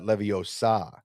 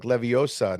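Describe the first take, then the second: First: Leviosa as levio-SAH; stress on SA. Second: Leviosa as levi-OH-sa; stress on O. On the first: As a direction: land on the last syllable of Leviosa. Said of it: "not Leviosa". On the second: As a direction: put the weight on the O of Leviosa. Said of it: "It's not like Leviosa". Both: Shown as a demonstration.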